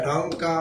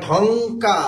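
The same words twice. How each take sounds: First: Said in the usual way. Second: "ঢংকা" very slow, long ng and long final আ; sounding out. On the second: Shown as a demonstration. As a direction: stretch "ঢংকা" into two held syllables for dictation. Teacher sounds out spelling word.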